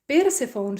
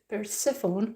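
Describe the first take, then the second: First: The name is pronounced with Finnish sounds. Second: The name is pronounced with English sounds. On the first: The speaker calls it wrong. "I pronounce it Finnish way" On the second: The speaker calls it right. "I think it's Persephone"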